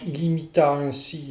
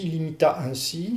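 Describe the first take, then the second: First: The vowels start cleanly with no breathy h. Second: The vowels start with a breathy h sound. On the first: "là je n'aspire pas"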